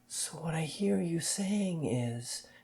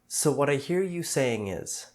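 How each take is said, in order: First: It is said in an exaggerated, syrupy sincere way. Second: It is said in a plain, neutral way.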